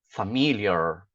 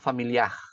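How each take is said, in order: First: The final r has a curled tongue. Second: The final r is a throaty guttural sound. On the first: "A língua ele fica encolhida no meio... Então o que que eu falo?" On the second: "Não pode falar familiar... está colocando um J ou um G no final"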